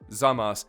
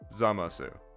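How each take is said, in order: First: The final u sound is dropped. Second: The final u sound is fully pronounced. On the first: The speaker calls it right. "you'd say Zamas" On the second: The speaker calls it wrong. "and not Zamasu"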